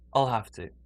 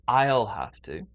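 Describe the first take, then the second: First: "I'll" is said quickly with a reduced vowel. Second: "I'll" is said slowly with a full vowel. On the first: The speaker calls it right. "more quickly, a bit more naturally" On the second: The speaker calls it wrong. "I won't say I'll have to"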